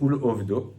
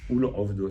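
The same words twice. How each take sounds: First: It starts with a plain vowel sound. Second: It starts with a guttural throat sound. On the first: To lose him. The speaker calls it wrong. "Ceux qui disent Ul Ovdo" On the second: To serve him. The speaker calls it right. "Avec Aïn"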